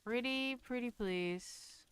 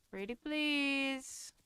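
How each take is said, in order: First: Slow, coaxing plea; sweetly insistent. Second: Higher, slow, sugary plea; sweetly insistent. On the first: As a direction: draw it out sweetly to coax. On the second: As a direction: sing it sweetly, begging nicely. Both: Pretend. Begging the game for a door.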